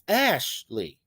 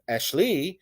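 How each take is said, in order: First: Ashley as a slow ASH-lee; long strong ASH, light ending on Ashley; stress on first syllable. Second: Ashley as ash-LEE, end punched; wrong second-syllable stress. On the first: Teacher correcting someone's name, Ashley stressed on ASH. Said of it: "it's Ashley". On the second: Teacher showing the wrong name, Ashley stressed on LEE. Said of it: "someone's name isn't Ashley". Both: Shown as a demonstration.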